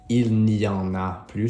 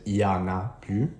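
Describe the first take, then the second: First: The negative n sound is pronounced before y. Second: The negative n sound is dropped entirely. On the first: "she didn't say il n'y en a plus" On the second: "she said il y en a plus"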